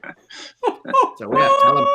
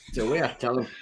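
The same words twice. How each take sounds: First: Laughing catchphrase. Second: Said in the usual way. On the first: Real, not acted.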